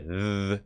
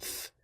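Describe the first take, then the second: First: The th sound is voiced, with buzzing. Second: The th sound is unvoiced, only breath. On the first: "this has a voiced th" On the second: "Thwack has an unvoiced th"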